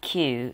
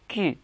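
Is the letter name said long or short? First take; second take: long; short. First: The letter name is said with a long sound. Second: The letter name is said with a short sound. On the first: The speaker calls it wrong. "It's not Q" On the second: The speaker calls it right. "it's Q. Kind of short pronounce again"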